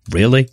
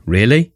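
First: Put-on a light American-accent "Really?" with a rise; imitating the American guy's "Really?" lightly, with a rising tune. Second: Put-on a light British-accent "Really?" with a rise. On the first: Urinal advert guy, a mild American-accent "Really?". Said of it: "And it's this American guy". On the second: Dubbed British voice in the same advert, a light British-accent "Really?".

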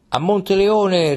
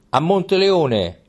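First: Echoed rallying cry. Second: Slow, higher rallying call; rallying cry. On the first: Troop echoes the king's march, higher slow rallying shout. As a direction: cry it back, rising with the troop. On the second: Troop takes up the king's march, slow rallying call. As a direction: call out the destination like a soldier. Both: A narrator's reading. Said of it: "ripeté tutta la truppa".

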